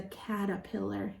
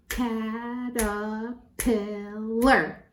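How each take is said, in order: First: Said in the usual way. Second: "Caterpillar" very slowly in four drawn-out beats; syllable by syllable. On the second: Shown as a demonstration. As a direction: count out every syllable of "Caterpillar". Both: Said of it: "count them".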